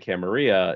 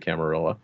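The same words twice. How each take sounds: First: The double L is said like a Y. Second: The double L is said like an L. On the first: The speaker is familiar with Spanish. "familiar with Spanish and the double L" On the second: The speaker is a modern American. "American sort of one"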